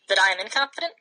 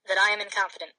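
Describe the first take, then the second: First: It is said as a question, rising. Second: It is said as a statement, falling.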